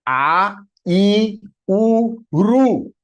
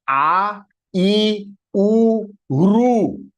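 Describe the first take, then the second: The two takes are said the same way.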